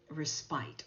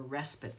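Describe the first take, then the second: First: It is pronounced the non-American way. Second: It is pronounced the American way.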